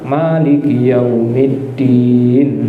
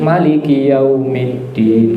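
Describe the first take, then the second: First: The first vowel of Maliki is drawn out long. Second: The first vowel of Maliki is kept short. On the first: "Yang baca panjang" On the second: "Baca pendek?"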